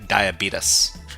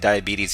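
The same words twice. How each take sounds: First: It is said in a strong Southern accent. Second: It is said in a plain, standard accent. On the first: "he had a pretty strong southern accent" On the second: "instead of saying diabetes"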